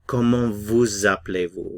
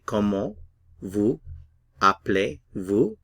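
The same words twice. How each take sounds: First: Vous links into appelez with a z sound. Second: Each word is said separately without linking. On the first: "Notice the liaison or linking" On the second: "remember individually"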